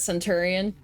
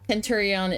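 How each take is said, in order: First: The word begins with a soft S sound. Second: The word begins with a hard K sound. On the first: This is the commonly known form. "but everyone knows it as Centurion" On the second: This is the original Latin form. "Kenturion in Latin"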